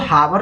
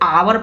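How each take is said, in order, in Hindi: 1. इस शब्द की शुरुआत h की ध्वनि से होती है। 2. इस शब्द की शुरुआत स्वर की ध्वनि से होती है। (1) "इसको हावर नहीं पढ़ते" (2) "इसको आवर पढ़ते हैं"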